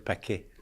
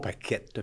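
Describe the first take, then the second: First: The word ends on a vowel, no t sound. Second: The word ends with a pronounced t sound. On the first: The speaker calls it right. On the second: The speaker calls it wrong. "Pas paquette"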